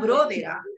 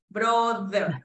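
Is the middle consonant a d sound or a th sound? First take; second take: d sound; th sound. First: The middle consonant sounds like a d. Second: The middle consonant is a soft th. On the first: The speaker calls it wrong. "Porque brother es como si esto fuera con D" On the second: The speaker calls it right. "Y esto no es D. Esto es brother"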